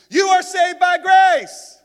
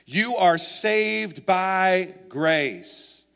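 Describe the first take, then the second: First: It is said emphatically, like an exclamation. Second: It is read flatly, without exclamatory force.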